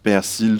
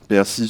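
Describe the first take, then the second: First: The final L sound is pronounced. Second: The final L sound is silent. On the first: "soit la présence du L" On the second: "On a aussi l'absence de L"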